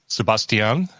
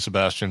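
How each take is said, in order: First: The name is said the Spanish way. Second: The name is said the English way. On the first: It respects how the name is really written. "that is with the accent, uh, that we should pronounce it that way" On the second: It ignores how the name is really written. "everybody else can call you Sebastian"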